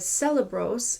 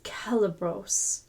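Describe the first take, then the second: First: The word begins with an S sound. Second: The word begins with a K sound. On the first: The speaker calls it wrong. "instead of celebros" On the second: The speaker calls it right. "Always sounds like a K"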